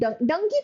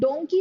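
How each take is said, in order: First: The first vowel is a short 'uh' sound. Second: The first vowel is an 'o' sound. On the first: This is the casual, everyday way people say it. The speaker calls it wrong. "लोग बाग डंकी बोलते हैं" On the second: This is the standard way to say it. The speaker calls it right. "डोंकी होता है"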